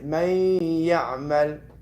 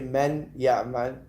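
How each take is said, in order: First: The n sound merges into the following y. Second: The n sound is pronounced clearly before the y. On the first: The speaker calls it right. "the noon is there, but it enters into the ya" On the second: The speaker calls it wrong. "I don't say"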